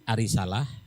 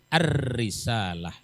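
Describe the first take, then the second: First: The r sound is single and short. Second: The r sound is doubled and held longer. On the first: The speaker calls it wrong. "Kalau tidak pakai tasdid" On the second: The speaker calls it right. "Pakai tasdid"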